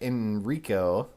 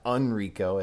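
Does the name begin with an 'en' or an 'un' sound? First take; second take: en; un. First: The name begins with an 'en' sound. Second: The name begins with an 'un' sound. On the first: The speaker calls it right. "Chris actually pronounces this guy's name right" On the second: The speaker calls it wrong. "as Jill calls him"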